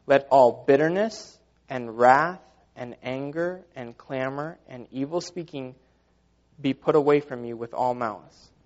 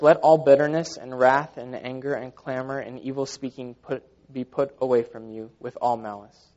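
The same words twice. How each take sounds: First: Slow, deliberate scripture reading; slow rereading. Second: Said in the usual way. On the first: Real, not acted. Preacher rereading the verse to the congregation, slow and deliberate. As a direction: read it out phrase by phrase, letting each item land. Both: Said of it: "Let me read that again".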